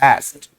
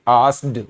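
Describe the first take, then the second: First: The word ends with a t sound. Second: The word ends with a d sound. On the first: The speaker calls it right. "ये टे की sound आती है और ये बोला जाता है एस्ट" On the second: The speaker calls it wrong. "यानी कि डे की साउंड निकाली थी यहां"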